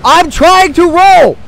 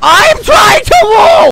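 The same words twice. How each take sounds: First: High, loud, drawn-out protest; stretched-out exasperated shout; frustrated yell. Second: Very high, slow screamed protest; screeching, stretched-out frustration; frantic scream. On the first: Frustrated as dodge fails. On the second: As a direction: scream every word at the top of the voice. Repeats louder as dodge fails. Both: Real, not acted.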